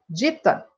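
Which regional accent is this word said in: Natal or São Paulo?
São Paulo. It is said with a São Paulo accent. "Eu, como paulista, digo"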